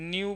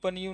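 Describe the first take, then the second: First: The word begins with an n sound. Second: The word begins with a p sound. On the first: The speaker calls it right. "P silent होगा, न्यू बोलना है" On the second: The speaker calls it wrong. "पनियू पनियू नहीं बोलना है"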